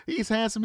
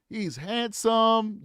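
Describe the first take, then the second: First: Said in the usual way. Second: Slow, stretched He's handsome with weight on handsome; drawn-out praise. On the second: Shown as a demonstration. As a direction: linger on handsome, savouring it. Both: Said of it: "I ain't handsome".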